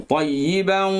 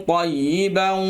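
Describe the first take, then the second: Both takes have the same delivery.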